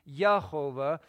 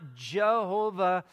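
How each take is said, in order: First: The word begins with a Y sound. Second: The word begins with a J sound. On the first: The speaker calls it right. "it would be Yehovah" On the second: The speaker calls it wrong. "There isn't a J sound in Hebrew. So it's not Jehovah"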